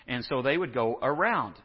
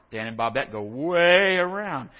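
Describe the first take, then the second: First: Said in the usual way. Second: "way around" slowed and leaned on; slow emphasis on "way" for the detour joke; drawn-out way around. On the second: Shown as a demonstration. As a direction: stretch "way" to show the long detour.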